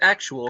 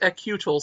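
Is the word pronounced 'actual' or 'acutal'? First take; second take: actual; acutal. First: The word is pronounced as 'actual'. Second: The word is pronounced as 'acutal'. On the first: The speaker calls it wrong. "No, no, no. Say it properly" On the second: The speaker calls it right. "It's acutal"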